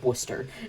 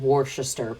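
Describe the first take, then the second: First: The middle syllables are dropped into two syllables. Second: Every written syllable is sounded out in full. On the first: "but it's Worcester" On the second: "I know it's spelled Worcester"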